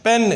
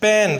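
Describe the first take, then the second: The two takes are said the same way.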